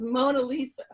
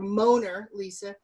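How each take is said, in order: First: The r is dropped, New Orleans style. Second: The r at the end of Moaner is pronounced.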